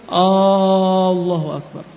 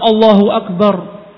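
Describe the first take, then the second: First: It starts with an added long vowel. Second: It starts directly with no added vowel. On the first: It asks whether God is the greatest. The speaker calls it wrong. "ketika dia menambahkan" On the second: It states that God is the greatest. The speaker calls it right. "Yang seharusnya Allahu Akbar"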